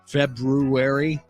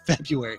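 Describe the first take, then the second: First: The first r is carefully pronounced, Feb-roo-ary. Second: The first r is dropped, Feb-yoo-ary.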